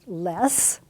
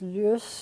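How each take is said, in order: First: The vowel sounds like the one in 'less'. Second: The vowel sounds like the one in 'lush'. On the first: The speaker calls it wrong. "by most of us, pronounced less" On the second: The speaker calls it right. "it really is lus"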